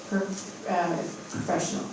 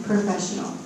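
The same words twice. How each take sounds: First: Too quiet. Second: Professional said louder on request; repeated louder. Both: Real, not acted. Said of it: "Say it again".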